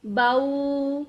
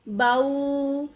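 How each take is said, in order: First: The vowel glides from a to u. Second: The vowel glides from a to u.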